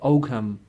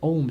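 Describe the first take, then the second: First: The word is said with a g sound. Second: The word is said with no g sound. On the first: This is how the English say it. "English people pronounce it Ogham" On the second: This is how the Irish say it. "it's a silent uh, G, so we say Om script"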